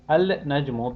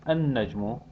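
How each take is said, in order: First: The l is pronounced before the n. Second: The l merges into a doubled n.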